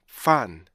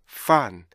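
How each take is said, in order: Both takes have the same delivery.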